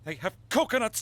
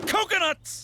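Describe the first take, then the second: First: Said in the usual way. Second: High, punchy exclamation; excited outburst. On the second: Acted. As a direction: blurt it out with sudden glee. Same word repeated with emphasis.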